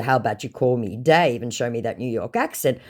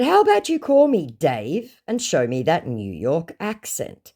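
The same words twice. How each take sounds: First: Said in the usual way. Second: Slow, higher retold dare; mock-inviting challenge; goading challenge. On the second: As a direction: goad the scammer, drawing it out. First take, acted challenge.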